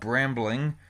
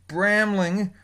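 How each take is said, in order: First: It is said with a b after the m. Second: It is said without a b after the m. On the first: The speaker calls it wrong. "I used to call it Brambling" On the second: The speaker calls it right. "I read it properly, and it's Bramling"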